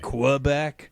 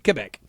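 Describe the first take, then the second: First: It is said with an American English pronunciation. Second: It is said with a French-Canadian pronunciation. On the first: This is how people in the United States say it. "we all in the United States say" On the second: This is how locals say it. "if you're from there, you'd say"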